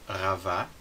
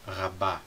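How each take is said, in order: First: The middle consonant is a v sound. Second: The middle consonant is a b sound. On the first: The speaker calls it wrong. "Em vez de ravá" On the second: The speaker calls it right. "vira rabá"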